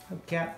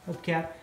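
No difference in how they are said.

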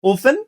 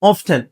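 First: "often" as off-en; "often" with F straight into "en"; silent-T pronunciation. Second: "often" as off-ten; "often" with a clear T after F; sounded-T pronunciation. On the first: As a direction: say "often" without the T. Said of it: "দুটাই সঠিক". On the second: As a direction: say "often" with the T pronounced. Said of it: "often টা অনেক আগে ব্যবহার হতো". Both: Shown as a demonstration.

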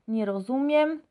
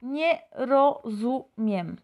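First: Said in the usual way. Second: Slow, syllable by syllable, nie rozumiem; slow Polish demo. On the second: Shown as a demonstration. Teacher modelling the phrase slowly for Spanish speakers. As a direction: spell out "Nie rozumiem" slowly, each sound clear. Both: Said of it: "votamos por la segunda frase".

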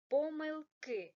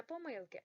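First: "помилки" louder, stress on the last syllable "ки"; correct stress. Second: "помилки" with stress on "ми", as a mistake; wrong stress. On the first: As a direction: punch the final "ки" in "помилки". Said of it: "Наголос на останній склад". (правильно: "помилки", голосно, з наголосом на останньому складі) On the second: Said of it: "не помилки". (неправильно: "помилки" з наголосом на "ми") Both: Shown as a demonstration.

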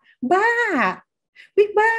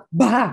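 First: Much higher, playful coy squeal; shy teasing. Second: Insult. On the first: Embarrassed friend teasing back, coy and much higher. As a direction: say it like a bashful, flirty tease. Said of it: "เขาพูดด้วยความเขินอาย". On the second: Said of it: "คำด่าทอ". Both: Shown as a demonstration.

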